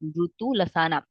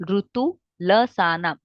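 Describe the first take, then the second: First: Said in the usual way. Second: Slow, careful chant of ऋतु लसानाम; slow recitation. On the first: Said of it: "ऋतु लसानाम (repeated)". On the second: Shown as a demonstration. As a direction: recite ऋतु लसानाम slowly, every syllable spelt out. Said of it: "ऋतु लसानाम (second take follows)".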